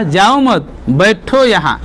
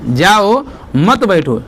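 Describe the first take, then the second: First: Group जाओ मत together, then बैठो यहाँ; pause after मत. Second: Slow, जाओ alone, then मत बैठो together; pause after जाओ. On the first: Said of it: "यहाँ पर अल्प विराम लगाया है". ("जाओ मत" के बाद विराम) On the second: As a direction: separate जाओ from मत बैठो, taking it slowly. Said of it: "उल्टा ही समझ गया". (धीरे, "जाओ" के बाद विराम) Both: Shown as a demonstration.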